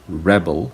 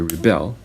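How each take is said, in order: First: The stress is on the first syllable. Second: The stress is on the second syllable. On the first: A person who rebels. "that means um, a person who just rebelled or a person who is rebellious" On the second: The action of rebelling. "that's an action word, it's a verb"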